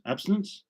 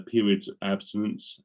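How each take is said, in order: First: High rising query at his own word; startled self-check; puzzled double-take. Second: Said in the usual way. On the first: Real, not acted. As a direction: catch yourself on the wrong word. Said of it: "Absence, sorry". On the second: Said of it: "Abstinence? Absence, sorry".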